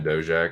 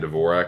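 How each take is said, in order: First: The surname is said without a 'v' sound. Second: The surname is said with a 'v' sound. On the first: This is how the name is really said. The speaker calls it right. "It's definitely Dojak" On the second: This is how most people say the name. The speaker calls it wrong. "Everyone's saying Dvorak"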